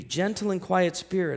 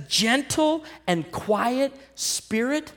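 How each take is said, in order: First: Said in the usual way. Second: Mocking quote. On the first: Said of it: "Look at what the scripture says". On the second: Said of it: "It says".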